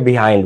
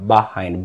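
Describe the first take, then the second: First: The first syllable has an 'ee' vowel. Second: The first syllable has an 'ah' vowel. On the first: The speaker calls it wrong. "এটাকে অনেকে বিহাইন্ড বলে" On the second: The speaker calls it right. "সঠিক উচ্চারণ হচ্ছে বাহাইন্ড"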